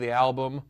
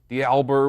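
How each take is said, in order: First: The word ends with an m sound. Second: The word ends with an r sound. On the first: The speaker calls it right. "which is supposed to be the album" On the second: The speaker calls it wrong. "words mispronounced"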